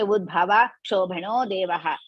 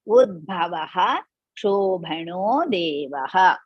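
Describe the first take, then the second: First: The first word ends without the final 'ha' sound. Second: The first word ends with a final 'ha' sound. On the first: The speaker calls it wrong. "You should not say" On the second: The speaker calls it right. "you have to pronounce that udbhavaha"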